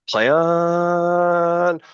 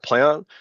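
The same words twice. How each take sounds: First: The words are stretched out slowly. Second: The words are said quickly and clipped. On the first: The speaker calls it right. "My play on is one to two seconds" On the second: The speaker calls it wrong. "it's not play on"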